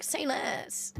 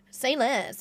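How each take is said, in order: First: Breathy whispered "Say less". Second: Said in the usual way. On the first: Pretend. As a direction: whisper it like a secret deal. Eager reply to a sponsor.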